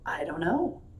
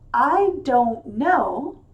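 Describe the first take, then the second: First: Some sounds are dropped in relaxed connected speech. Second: Every sound is pronounced clearly and fully.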